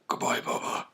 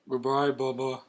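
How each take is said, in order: First: It is said in a Batman voice. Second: It is said in a plain voice.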